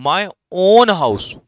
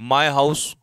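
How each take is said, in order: First: "own" said slow, high and loud; stress on own. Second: Said in the usual way. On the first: Shown as a demonstration. Teacher contrasting my house with my own house, with "own" punched. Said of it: "तो own house पे क्या कर रहा है? Emphasise".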